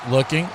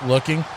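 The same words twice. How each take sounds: The two takes are said the same way.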